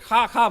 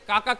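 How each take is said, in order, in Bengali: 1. ডাকটি একটি শ্বাসযুক্ত k ধ্বনি দিয়ে শুরু হয়। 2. ডাকটি একটি সাধারণ k ধ্বনি দিয়ে শুরু হয়। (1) "সিলেটের বর্ডারে চলে গেল সে খা খা বলা শুরু করলো" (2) "ঢাকা থেকে কাকা করতে করতে"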